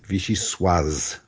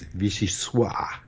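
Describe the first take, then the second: First: The final consonant is clearly pronounced. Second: The final consonant is left silent. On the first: The speaker calls it right. "The correct pronunciation is vichyssoise" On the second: The speaker calls it wrong. "often mispronounce it as vichyssoise in a mistaken attempt to sound authentically French"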